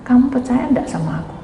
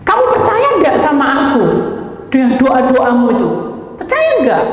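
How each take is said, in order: First: Said in the usual way. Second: Higher and louder, pressing the question; an insistent divine challenge, pitched up high. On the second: Retold or imitated. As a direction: demand an answer, rising to the end. God presses the question again.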